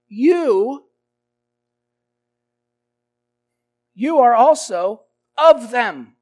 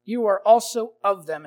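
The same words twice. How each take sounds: First: Loud pointed accusation; accusing. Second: Said in the usual way. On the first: Acted. Servant girl accusing Peter, loud and pointed. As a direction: jab the accusation straight at him.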